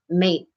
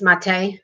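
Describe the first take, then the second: First: It is said as one syllable, like English 'mate'. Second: It is said as two syllables, ending in 'tay'. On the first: The speaker calls it wrong. "I know it's not mate" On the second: The speaker calls it right. "with the accent, I'm guessing it's mate"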